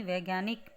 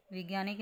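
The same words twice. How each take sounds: First: वैज्ञानिक with ai, as vaigyaanik; ai vowel. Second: वैज्ञानिक said as vigyaanik; wrong short vowel. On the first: Teacher gives the correction, वैज्ञानिक starting vai. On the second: Teacher shows the mistake, वैज्ञानिक starting vi. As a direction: begin वैज्ञानिक on vi instead of vai. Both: Shown as a demonstration. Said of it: "नहीं".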